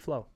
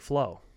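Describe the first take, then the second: First: The word is said in a flat, dry manner. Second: The word is said in an ordinary, natural manner. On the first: "now do it dry" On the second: "Shoot me with the normal"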